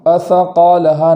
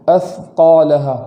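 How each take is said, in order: First: A short vowel follows the th/s sound. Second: No vowel follows the th/s sound. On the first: The speaker calls it wrong. "सा पर जो जज़्म है वो ज़बर ना हो जाए, असक़ालहा नहीं पढ़ेंगे" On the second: The speaker calls it right. "बल्कि अस्क़ालहा"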